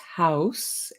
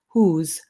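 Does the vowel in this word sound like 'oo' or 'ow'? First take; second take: ow; oo. First: The vowel is a gliding 'ow' sound. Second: The vowel is a plain 'oo' sound. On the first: This is the standard German form. "In German, it's Haus" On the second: This is the Swiss German form. "but in Swiss, it's whose"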